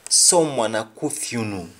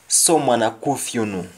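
Both takes have the same delivery.

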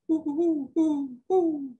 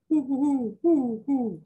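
First: The hoots are made in a higher voice. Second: The hoots are made in a deeper voice. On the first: The call comes from the female owl. "her voice is higher" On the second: The call comes from the male owl. "he's got a deeper voice"

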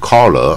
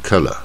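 First: The word ends without an r sound. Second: The word ends with an r sound. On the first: The speaker calls it wrong. "你不要念成color" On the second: The speaker calls it right. "带儿的音color"

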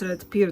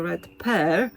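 First: The vowel in 'pear' sounds like 'peer'. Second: The vowel in 'pear' sounds like 'pair'. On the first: It is not a real English word. The speaker calls it wrong. "to nie jest Red Pear" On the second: It means a red pear fruit. The speaker calls it right. "tylko Red Pear, co oznacza gruszka"

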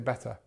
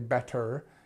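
First: The final vowel is reduced to a weak schwa. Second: The final vowel is full and clearly pronounced. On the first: The speaker calls it right. "you can just say better. And it sounds a lot better, sounds a lot more natural" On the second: The speaker calls it wrong. "you don't need to say better"

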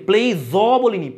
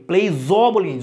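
The two takes are said the same way.

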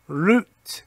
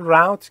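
First: It is said in a British pronunciation. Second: It is said in an American pronunciation.

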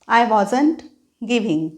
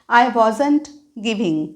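No difference in how they are said.

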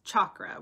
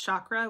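First: The opening consonant is a hard, pronounced ch. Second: The opening consonant is soft and less pronounced. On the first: "with a more pronounced CH" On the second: "which is how I pronounce it"

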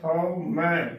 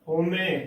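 First: It is said as hau-mai, with two distinct vowels. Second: It is said as ho-me, with plain o and e. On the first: The speaker calls it right. "ਹਉਮੈ ਉਚਾਰਨ ਕਰਨਾ ਹੈ" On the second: The speaker calls it wrong. "ਹੋਮੇ ਉਚਾਰਨ ਨਹੀਂ ਕਰਨਾ"

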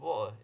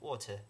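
First: It is said in casual everyday British speech. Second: It is said in a formal, overly careful British pronunciation. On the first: This is how people in Britain actually speak. The speaker calls it right. "and water" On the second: This is the pronunciation taught in class. The speaker calls it wrong. "instead of water"

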